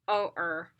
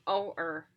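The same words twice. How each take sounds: No difference in how they are said.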